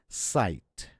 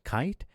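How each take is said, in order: First: The word begins with an S sound. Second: The word begins with a K sound. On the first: The speaker calls it right. "it's sight. The C, the first C, is pronounced as an S" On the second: The speaker calls it wrong. "is not kite"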